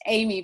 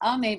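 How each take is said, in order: First: The name is said the English way. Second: The name is said the French way. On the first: The speaker calls it wrong. "you might think of it as Amy" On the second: The speaker calls it right. "it is the French pronunciation"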